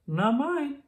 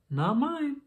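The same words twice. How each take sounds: First: Put-on high child's voice, higher; a small child answering the teacher. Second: Put-on high child's voice, higher. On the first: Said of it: "said one child". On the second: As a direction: another small child answering the teacher. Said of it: "said another". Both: A narrator's reading.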